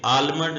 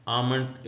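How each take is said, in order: First: आलमंड with the l sounded, as the wrong way; wrong pronunciation. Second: आमंड as aa-mand, the l left silent; correct pronunciation. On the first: Teacher to students, the wrong आलमंड with l. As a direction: say आलमंड pronouncing the l, to show the mistake. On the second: Teacher to students, correct आमंड with silent l. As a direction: say आमंड without any l. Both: Shown as a demonstration. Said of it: "ये आलमंड नहीं है".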